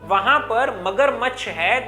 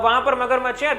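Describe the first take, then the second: First: Every sound of magarmachh is clearly pronounced. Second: The sounds of magarmachh are slurred together. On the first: The speaker calls it right. "हर एक अक्षर कान तक पहुंचना चाहिए, कुछ ऐसे" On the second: The speaker calls it wrong. "कुछ लोग कैसे बोलते इस प्रकार से ... लेकिन ये सही तरीका नहीं है"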